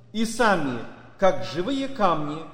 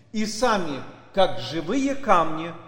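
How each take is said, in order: The two takes are said the same way.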